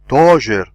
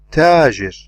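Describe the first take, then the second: First: The t is heavy, with the tongue back raised. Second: The t is light, with the tongue back low. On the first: The speaker calls it wrong. "I don't say" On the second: The speaker calls it right. "I say tajir"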